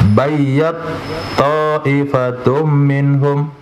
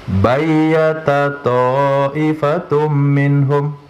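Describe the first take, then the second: First: The t merges into the next word's t. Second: The t keeps its vowel, separate from the next word. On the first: "itu idgham" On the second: "boleh dibaca tanpa idgham"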